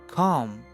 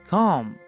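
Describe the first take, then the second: The two takes are said the same way.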